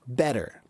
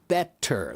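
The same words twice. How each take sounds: First: It is said quickly with a soft D. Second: It is said slowly with a hard T. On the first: "if you say it quickly, then the hard T becomes a soft D" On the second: "when you say it slowly, it's a hard T"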